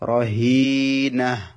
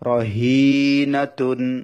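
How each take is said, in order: First: The word ends with a final h sound. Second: The word ends with a full t syllable. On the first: Reading stops at this word. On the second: Reading continues without stopping here.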